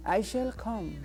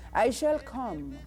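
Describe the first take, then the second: No difference in how they are said.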